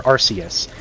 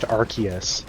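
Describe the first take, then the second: First: "Arceus" as AR-see-us, with an S; soft-C pronunciation. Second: "Arceus" as AR-kee-us, with a K; hard-K pronunciation. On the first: Contrasting the rival reading, "Arceus" said AR-see-us. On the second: Setting out a pronunciation argument, "Arceus" said AR-kee-us. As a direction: give "Arceus" a hard middle K. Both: Shown as a demonstration. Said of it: "why it shouldn't be pronounced".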